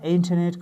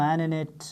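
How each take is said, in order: First: The t sound is clearly pronounced. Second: The t sound is dropped entirely.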